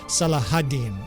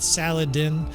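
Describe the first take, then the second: First: It is said with an h sound in the middle. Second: It is said without an h sound in the middle. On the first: The speaker calls it right. "a better pronunciation" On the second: The speaker calls it wrong. "the butchered in English"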